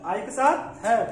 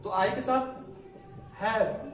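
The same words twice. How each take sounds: First: हैव stressed, louder and slower; teacher drilling हैव slowly and firmly; slow emphatic repeat. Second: Said in the usual way. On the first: Shown as a demonstration. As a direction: lean on हैव so the class catches it. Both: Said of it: "ध्यान देंगे".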